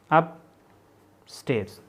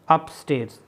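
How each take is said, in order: First: "upstairs" very slow, long pause after अप; broken into parts. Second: Said in the usual way. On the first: Shown as a demonstration. Teacher spelling out strokes for students, "upstairs" slowly in two parts. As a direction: split "upstairs" into अप and stairs. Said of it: "ठीक है".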